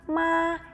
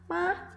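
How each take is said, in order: First: The syllable is said with the first tone. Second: The syllable is said with the neutral tone. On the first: It means mother. "Nada pertama, seperti saat kita memberikan surprise" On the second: It is a question particle. "nada kelima, nada netral"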